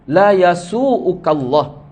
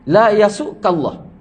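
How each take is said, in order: First: The glottal stop is followed by an u vowel. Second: The glottal stop has no vowel after it. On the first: It is a prayer that no harm will come. "dengan rafa' iaitu baris hadapan huruf hamzah" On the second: It forbids the listener from letting harm come. "dengan jazam, jazam tu jazam hamzah"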